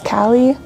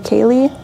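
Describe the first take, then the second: First: Two syllables, starting with a short 'a' vowel. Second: Two syllables, starting with a long 'ay' vowel. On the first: "I think it's supposed to be pronounced as Callie" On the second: "or Kaylee"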